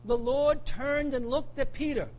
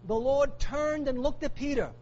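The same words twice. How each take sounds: First: "the Lord turned and looked at Peter" drawn out slowly, every word given weight; slow it right down, let "Lord" land; slow and weighty. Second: Said in the usual way. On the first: Shown as a demonstration.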